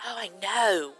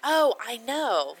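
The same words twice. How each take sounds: First: Australian twist on KNOW; lightly copied Australian accent; imitated Aussie accent. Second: Said in the usual way. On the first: Shown as a demonstration. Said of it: "say it the way she did". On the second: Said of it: "You know, instead of like".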